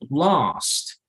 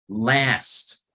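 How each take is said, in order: First: The vowel is long, British style. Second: The vowel is short, American style. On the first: "In the British would be like lost. Like longer" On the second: "Let's use American English this time"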